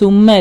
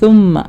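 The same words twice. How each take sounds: First: The first consonant is a plain s sound. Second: The first consonant is a th sound. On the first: The speaker calls it wrong. "കൃത്യമായി സുമ്മ അല്ല" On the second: The speaker calls it right. "നാവിൻ്റെ തുമ്പ് തറ്റത്തുനിന്ന് tip of the tongue"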